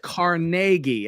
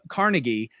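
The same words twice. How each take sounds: First: It is said the Scottish hometown way. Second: It is said the usual American way. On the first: This is how it is said in his Scottish hometown. "if you go to his hometown in Scotland, it is" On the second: This is how most people in America say it. "if you're in America, you're more apt to say"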